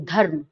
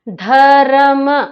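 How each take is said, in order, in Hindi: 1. र संक्षिप्त है, इसे बिना स्वर के जल्दी बोला जाता है। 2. र को अपने स्वर के साथ खींचकर बोला जाता है। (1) "धर्म जल्दी बोलते हैं" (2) "ऐसा नहीं बोलते हम"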